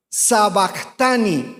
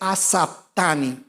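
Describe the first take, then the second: First: It begins with an 's' and has a 'b'. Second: It begins with an 'a' and has a 'p'. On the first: The speaker calls it wrong. "no es sabactani" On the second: The speaker calls it right. "es asaptani"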